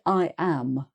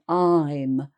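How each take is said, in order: First: I am is said as two full words. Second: I am is contracted to one syllable. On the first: The speaker calls it wrong. "people actually expand them. So they might say" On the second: The speaker calls it right. "when they should really be saying"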